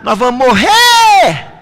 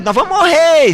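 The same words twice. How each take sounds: First: Higher, louder, slowed cry of terror; retold disciples shouting in a storm; panicked shout. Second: Much higher, thin voice of fear; frightened cry. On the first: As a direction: yell it like the boat is sinking. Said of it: "os discípulos começaram a gritar". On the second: Retold or imitated. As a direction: wail it as if about to drown. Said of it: "começou a ficar com medo".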